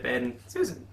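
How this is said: A medium pause separates the two names. "A little shorter, but you're getting it"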